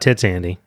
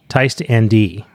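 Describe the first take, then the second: First: The first word sounds like 'tits'. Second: The first word sounds like 'tyst'. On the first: The speaker calls it wrong. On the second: The speaker calls it right.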